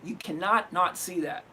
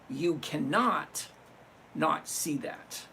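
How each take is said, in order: First: It is said at a normal speed. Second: It is said slowly.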